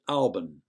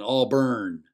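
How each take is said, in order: First: The ending is said with no r sound. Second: The ending is emphasized and sounds like burn. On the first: The speaker is a local. "as in A-W-B-U-N" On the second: The speaker is not from around here. "pronounce it with the burn"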